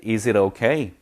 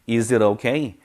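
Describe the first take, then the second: The two takes are said the same way.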